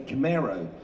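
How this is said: The word is said in an American accent. "Americans say Camaro"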